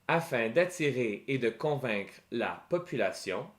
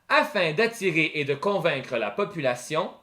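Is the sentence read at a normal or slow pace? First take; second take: slow; normal. First: It is read slowly and carefully. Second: It is read at a normal speaking pace.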